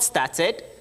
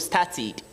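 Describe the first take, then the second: First: The ending is pronounced like 'ed'. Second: The ending is pronounced like 'id'. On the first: The speaker calls it wrong. "Not started" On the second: The speaker calls it right. "the ed is not pronounced as ed but as ed"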